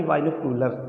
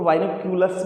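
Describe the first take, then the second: First: बाइनोक्यूलर with no s, ending on r; wrong singular form. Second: बाइनोक्यूलर्स with a final s sound; correct plural form. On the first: Teacher showing the wrong form बाइनोक्यूलर. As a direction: drop the s from बाइनोक्यूलर. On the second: Teacher contrasting plural बाइनोक्यूलर्स for the students. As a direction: finish बाइनोक्यूलर्स on the s. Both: Shown as a demonstration. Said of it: "ना कि बाइनोक्यूलर".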